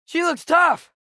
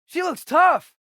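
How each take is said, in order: Both takes have the same delivery.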